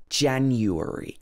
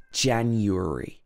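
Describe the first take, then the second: No difference in how they are said.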